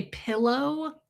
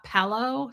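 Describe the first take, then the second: First: Pillow as PILL-oh; short i in pillow, said slowly; own pillow pronunciation. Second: Pillow as PELL-oh; rejected pillow pronunciation. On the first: Host showing how she says it, PILL-oh for pillow. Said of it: "I say pillow". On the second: Host showing what she rejects, PELL-oh for pillow. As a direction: eh vowel in place of i in pillow. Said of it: "not pillow". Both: Shown as a demonstration.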